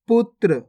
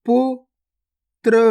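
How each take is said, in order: First: Said in the usual way. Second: गुफा drawn out very slowly, each sound held long; slow stretched reading. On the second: Shown as a demonstration. Teacher showing pupils each sound, drawn out very slowly. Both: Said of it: "पहले तो आपको शब्द को गौर से सुनना है".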